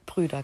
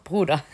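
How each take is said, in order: First: Brüder with ü, umlauted slip; wrong plural Brüder. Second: Bruder with plain u; corrected Bruder. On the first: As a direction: say Brüder with a rounded ü. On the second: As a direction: say Bruder with a clear u sound. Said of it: "Brüder, genau". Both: Real, not acted.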